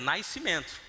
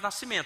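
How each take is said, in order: First: It has a Carioca glide before the s. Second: It has no glide before the s.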